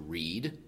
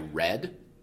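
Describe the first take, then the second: First: It is said as the present-tense form. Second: It is said as the past-tense form. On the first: The action happens now or is about to happen. "then we're looking at a present tense, an infinitive" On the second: The action already happened. "then you know it was the past tense"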